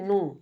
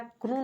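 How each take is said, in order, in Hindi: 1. इस शब्द की शुरुआत 'n' ध्वनि से होती है। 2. इस शब्द की शुरुआत 'k' ध्वनि से होती है। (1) "यहाँ पर आपको के साइलेंट मिलेगा" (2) "क्रू नहीं पढ़ना है"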